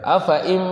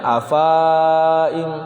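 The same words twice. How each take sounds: First: AFA IM with the A of AFA kept short; short vowel. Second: AFA IM with the final A of AFA held long; long vowel. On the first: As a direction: move straight from a short AFA into IM. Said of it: "dibaca pendek". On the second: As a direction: stretch the second A in AFA before IM. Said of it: "teksnya ia itu dibaca panjang". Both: Shown as a demonstration.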